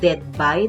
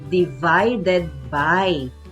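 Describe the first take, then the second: First: The middle syllables are squeezed out of the phrase. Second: Every syllable of the phrase is said fully. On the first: The speaker calls it wrong. "Sinasabi dead by, dead by. Parang may namatay" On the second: The speaker calls it right. "ang tamang pagbigkas ay divided by"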